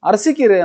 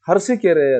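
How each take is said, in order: First: The word begins directly with a vowel. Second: The word begins with an added h sound. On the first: The speaker calls it right. "ಅರಸಿಕೆರೆ ಅನ್ನೋದನ್ನು" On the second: The speaker calls it wrong. "ಹರಸಿಕೆರೆ ಅಂತಾನೆ"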